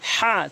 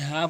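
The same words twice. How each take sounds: First: The h sound is strong and pressed. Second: The h sound is light and breathy. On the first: The speaker calls it right. "হা চাপ দিয়ে" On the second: The speaker calls it wrong. "এখানে কখনোই হা বলবেন না"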